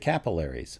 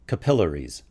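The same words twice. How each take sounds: First: It is said in an American way. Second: It is said in a British way. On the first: "in the U S we say capillaries" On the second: "in the U K it's capillaries"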